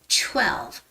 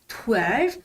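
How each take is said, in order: First: The first sound is a tense, ch-like t. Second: The first sound is a plain t. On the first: The speaker calls it right. "but it's twelve. ... it sort of sounds like the C H sound" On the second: The speaker calls it wrong. "It doesn't sound like twelve"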